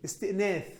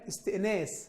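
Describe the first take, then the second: First: The word is said with a th sound. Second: The word is said with an s sound. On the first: The speaker calls it wrong. "فاكرها بالثه مش بالسين" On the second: The speaker calls it right. "كلمة استئناس الحيوان"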